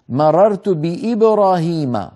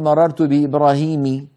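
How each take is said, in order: First: The name ends with an a vowel. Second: The name ends with an i vowel. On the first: The speaker calls it right. "لا تأتي عليه الكسرة" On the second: The speaker calls it wrong. "ولا نقول"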